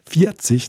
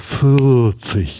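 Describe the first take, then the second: First: The R is pronounced in a Westphalian way. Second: The R is swallowed, mumbled and pulled down.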